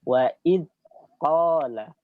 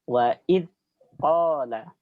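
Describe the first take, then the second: First: The dh sound's airflow is cut short. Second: The dh sound's airflow is cut short.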